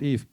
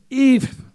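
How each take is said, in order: First: Said in the usual way. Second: "If" punched high and loud; stress on IF. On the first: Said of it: "use the word if". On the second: Shown as a demonstration. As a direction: hit the word "If" hard and high. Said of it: "okay, use the word if".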